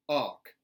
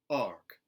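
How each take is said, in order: First: The R sound is dropped. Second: The R sound is lightly pronounced. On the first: "a general Southern dropped R" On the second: "a contemporary Southern, where those R colorations are put back in"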